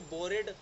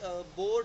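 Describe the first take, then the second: First: Said as two syllables, ending in 'ed'. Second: Said as one syllable, the final e silent. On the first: The speaker calls it wrong. "हम इसे बोरेड या बोरिड तो नहीं बोलते" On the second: The speaker calls it right. "देखो अब जैसे बोर्ड है"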